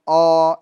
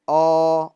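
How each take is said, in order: First: The vowel sounds thick, with the mouth held closed. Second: The same.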